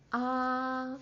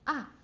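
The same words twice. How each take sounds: First: The pitch stays high and level. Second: The pitch drops sharply from high to low. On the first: "high and flat" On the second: "like a bungee jump"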